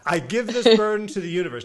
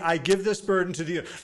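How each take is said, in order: First: It is said earnestly, with full conviction. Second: It is said half-heartedly, without conviction.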